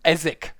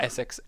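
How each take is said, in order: First: The name ends with a plain 'k' sound. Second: The name ends with a 'ks' sound. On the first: The speaker calls it right. "there's not even an S" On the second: The speaker calls it wrong. "not Essex"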